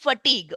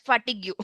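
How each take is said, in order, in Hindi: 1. यह शब्द अपने मानक उच्चारण में बोला जाता है। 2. यह शब्द स्पेलिंग के हिसाब से अक्षर-अक्षर बोला जाता है। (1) "So it is fatigue" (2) "my students would pronounce it as fatigue"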